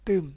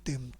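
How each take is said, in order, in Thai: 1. ออกเสียงด้วยวรรณยุกต์ไม้โท 2. ออกเสียงด้วยวรรณยุกต์ไม้เอก (1) "ไม่โทตึม" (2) "ไม่เอกตึม"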